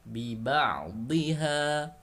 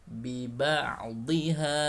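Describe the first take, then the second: The two takes are said the same way.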